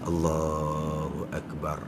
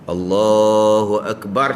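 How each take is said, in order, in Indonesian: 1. Diucapkan dengan sangat pelan. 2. Diucapkan dengan keras. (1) "dengan perlahan. Setakat dengar di telinga saja" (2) "ni takbir kuat"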